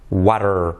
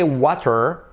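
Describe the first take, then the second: First: The middle consonant is a soft R-like tap. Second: The middle consonant is a clear T sound. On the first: "T becomes a soft R" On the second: "You could say water"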